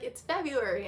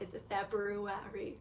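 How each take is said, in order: First: The first R in February is dropped. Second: The first R in February is clearly pronounced. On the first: The speaker calls it right. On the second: The speaker calls it wrong.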